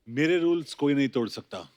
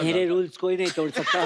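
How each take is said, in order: First: It is said in his normal voice. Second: It is said in a squeaky, high voice.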